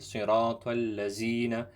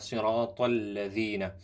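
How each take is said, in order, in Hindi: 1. बीच का व्यंजन गुंजन वाली 'z' ध्वनि है। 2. बीच का व्यंजन नरम 'th' ध्वनि है।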